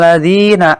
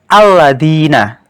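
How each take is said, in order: First: The opening vowel is dropped and joined to the previous word. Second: The word starts with its own clear opening vowel. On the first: The word falls in the middle of a verse. "adakah yang membaca A pada lafal alladzina seperti ketika membaca alladzina tadi? Pasti tidak ada" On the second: The word stands alone. "A-nya dibaca pada lafal alladzina"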